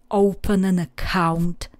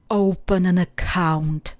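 Both takes have the same delivery.

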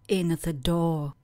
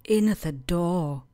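No difference in how they are said.

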